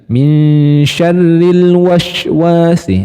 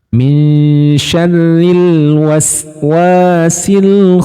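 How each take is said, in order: First: The s in waswasi drifts to an sh sound. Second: The s in waswasi stays a clear s sound. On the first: The speaker calls it wrong. "biasanya sinnya di sini larinya ke shin juga ... itu kurang tepat" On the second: The speaker calls it right. "Jadi tetap aja bunyinya di sin"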